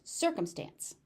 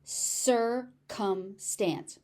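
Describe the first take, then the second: First: Said in the usual way. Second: Circumstance drawn out in three separate syllables; broken into syllables. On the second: Shown as a demonstration. Teacher warning that C is tricky, circumstance slowly in syllables. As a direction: slowly sound out "circumstance", cir, cum, stance. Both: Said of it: "C is tricky".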